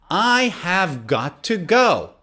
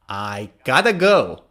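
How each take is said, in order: First: The words are said fully and separately. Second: The words blend into a short reduced form. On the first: "Instead of have got to" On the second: "you say gotta"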